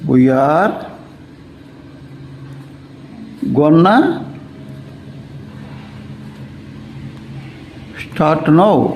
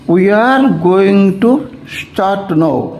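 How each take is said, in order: First: 'Going to' is reduced to one word, 'gonna'. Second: 'Going to' is said as two full words.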